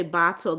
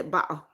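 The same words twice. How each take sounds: First: "bottle" with its middle consonant fully sounded; standard American "bottle". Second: "bottle" with a glottal stop replacing the middle consonant; British glottal "bottle". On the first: Streamer showing how British people don't say it, fully sounded "bottle". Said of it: "they don't say bottle". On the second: Streamer showing how British people say it, glottal-stopped "bottle". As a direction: drop the t in "bottle", British style. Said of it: "They say bottle". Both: Shown as a demonstration.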